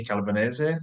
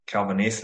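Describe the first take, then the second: First: "Calvanese" ending in a sounded -eh-zeh; Italian pronunciation. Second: "Calvanese" ending in -neece, final e silent; American pronunciation. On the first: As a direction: say "Calvanese" the Italian way, final e voiced. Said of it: "change up the Italian pronunciation". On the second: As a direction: say "Calvanese" the US way, rhyming with niece. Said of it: "as we say in the U S". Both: Shown as a demonstration.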